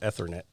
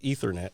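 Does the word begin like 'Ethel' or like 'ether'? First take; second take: Ethel; ether. First: The word begins like the name Ethel. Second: The word begins like the word ether. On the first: The speaker calls it wrong. "not Ethernet" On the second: The speaker calls it right. "Just like ether, like the gas ether"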